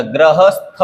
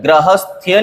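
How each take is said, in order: First: गृहस्थ ending in plain 'stha'; correct form, no y. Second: गृहस्थ्य ending in 'sthya'; wrong added y. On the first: Teacher gives the correction, गृहस्थ without y. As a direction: end गृहस्थ without any y glide. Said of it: "होता है". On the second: Teacher rejects a common error, गृहस्थ्य with extra y. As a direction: add a y glide ending गृहस्थ्य. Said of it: "नहीं होता". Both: Shown as a demonstration.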